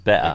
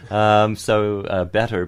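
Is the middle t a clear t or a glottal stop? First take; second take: glottal stop; clear t. First: The middle t is a glottal stop. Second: The middle t is a clear tongue t.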